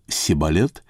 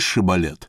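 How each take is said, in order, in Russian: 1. Слово начинается со звука 's'. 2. Слово начинается со звука 'sh'. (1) "а он говорил «Сибалет» и не мог иначе выговорить" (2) "скажи Шибалет"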